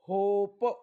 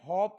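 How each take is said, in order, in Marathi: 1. हा स्वर लांब 'oh' आवाज आहे. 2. हा स्वर छोटा 'o' आहे, जसा hop मध्ये. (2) "हॉप नाही"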